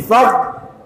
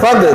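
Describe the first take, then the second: First: The final consonant is softly drawn out. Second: The final consonant ends with a bouncing release. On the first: The speaker calls it right. "ada suaranya sedikit terseret" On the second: The speaker calls it wrong. "Kalau fad itu nanti menjadi qalqalah"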